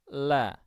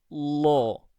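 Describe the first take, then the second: First: The L is thin, with a relaxed open throat. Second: The L is thick, with the tongue back raised. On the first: "lam tipis" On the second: "ketika kita mengucap lam tebal"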